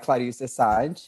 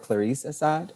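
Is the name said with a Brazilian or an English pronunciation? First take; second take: Brazilian; English. First: The name is said with Brazilian Portuguese sounds. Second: The name is said with English-style sounds.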